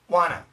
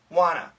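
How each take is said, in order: The two takes are said the same way.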